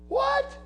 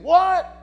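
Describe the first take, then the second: First: It is said in a plain, neutral tone. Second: It is said in an indignant, annoyed tone.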